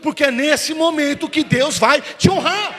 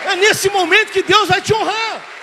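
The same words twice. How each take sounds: First: High, loud, slowed-down preaching cry; preaching shout. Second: "nesse" cried out higher and louder still; peak preaching shout. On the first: Pastor promises the congregation God's honour, in a slow loud shout. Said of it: "repeated line, bigger". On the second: Pastor repeats the promise to the congregation, at a full roaring peak. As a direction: push the repeat to the very top of the voice, hitting "nesse". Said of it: "repeated, at peak". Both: Acted.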